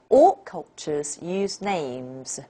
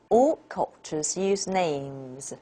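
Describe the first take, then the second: First: The main stress falls on the word names. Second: The same.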